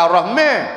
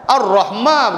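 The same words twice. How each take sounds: First: The long vowel leans toward an 'e' sound. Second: The long vowel is a clear open 'a'. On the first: The speaker calls it wrong. "dia jadi imalah" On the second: The speaker calls it right. "tetap Ar-Rahman"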